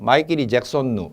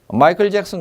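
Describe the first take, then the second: First: It is said with a Japanese-style pronunciation. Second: It is said with an English-style pronunciation.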